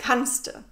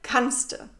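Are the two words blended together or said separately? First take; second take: blended; blended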